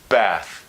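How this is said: The vowel is a front flat a sound. "whereas Americans would say"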